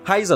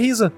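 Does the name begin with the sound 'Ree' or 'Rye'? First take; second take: Rye; Ree. First: The name begins with a 'rye' sound. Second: The name begins with a 'ree' sound. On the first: The speaker calls it right. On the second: The speaker calls it wrong.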